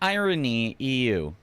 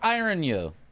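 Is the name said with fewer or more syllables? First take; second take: more; fewer. First: The name is said with more syllables. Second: The name is said with fewer syllables. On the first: The speaker calls it wrong. "It's not Irony E U" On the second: The speaker calls it right. "so it is Iron U"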